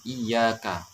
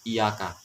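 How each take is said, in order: First: The y sound is doubled and held. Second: The y sound is single and short. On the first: The speaker calls it right. "harus gitu ya" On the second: The speaker calls it wrong. "tidak boleh"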